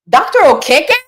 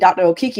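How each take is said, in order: First: The name's vowels after each k sound like 'ay'. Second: The name's vowels after each k sound like 'ee'. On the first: This is the name's real pronunciation. The speaker calls it right. "Like her name is Okeke" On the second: This is how the office staff mispronounce the name. The speaker calls it wrong. "Why are you guys calling her Doctor Okiki?"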